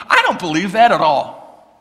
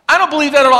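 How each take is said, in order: First: Said in the usual way. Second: Louder and higher, stressing don't; emphatic repeat. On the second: Shown as a demonstration. Preacher repeating the line louder to the congregation. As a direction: hit don't hard the second time. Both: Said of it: "repeated louder".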